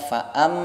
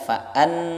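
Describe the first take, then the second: First: The lips close, giving an m sound. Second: The n is pronounced fully and clearly. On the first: "atau dibaca fa'am keliru" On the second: "Kalau dibaca fa'an keliru"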